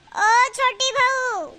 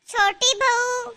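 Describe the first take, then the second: First: Very slow summons, falling at the end; long drawn-out call. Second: Slow, stretched-out call. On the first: Mother-in-law to younger daughter-in-law, long drawn-out call. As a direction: stretch every word to carry. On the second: Mother-in-law with a towel to wash, calling out. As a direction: summon someone from another room. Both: Acted.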